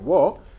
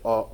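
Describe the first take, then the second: First: The syllable begins with a w sound. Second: The syllable begins directly with the vowel. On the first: The speaker calls it wrong. "the hiragana wo" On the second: The speaker calls it right. "it's actually pronounced as o when it's used as a particle"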